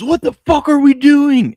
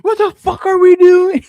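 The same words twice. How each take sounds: First: Loud high slow furious yell; angry fan yell. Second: Put-on loud, high kid's yell; a small kid parroting the grown-up; five-year-old copying. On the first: Retold or imitated. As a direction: blow up at the TV in overtime. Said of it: "Cole jumps up and goes". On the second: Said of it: "my five-year-old jumps up and goes".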